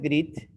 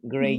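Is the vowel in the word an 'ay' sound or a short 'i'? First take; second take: short i; ay. First: The vowel is a short 'i' sound. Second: The vowel is a long 'ay' sound. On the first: The speaker calls it wrong. "No es grit" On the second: The speaker calls it right.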